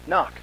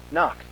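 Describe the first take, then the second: No difference in how they are said.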